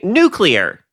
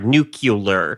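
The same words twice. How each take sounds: First: The middle is said as "clee," like its spelling. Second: The middle is said as "cu," like "nu-cu-lar." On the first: "which is how it's spelled" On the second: "what you are saying is N U C U L A R"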